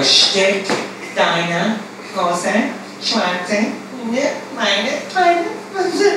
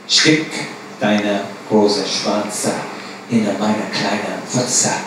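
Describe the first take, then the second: First: Higher, halting repetition; girl repeating it. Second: Slow, lower German line; low, dragged-out command; pimp's demand. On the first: Girl parroting the pimp's phrase, high and halting. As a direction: repeat it back high and unsure. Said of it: "we'd have to go". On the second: Pimp dictating the phrase to the girls, slow and low. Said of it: "Repeat after me". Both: Retold or imitated.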